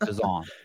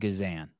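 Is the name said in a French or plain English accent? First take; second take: French; English. First: It is said in a French accent. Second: It is said in a plain English accent.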